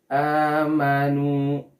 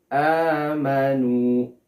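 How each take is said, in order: Both takes have the same delivery.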